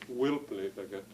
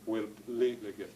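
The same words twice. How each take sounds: First: The main stress falls on the first word. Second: The main stress falls on the second word. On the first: The speaker calls it wrong. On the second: The speaker calls it right. "Secondary stress, then you hit the primary stress"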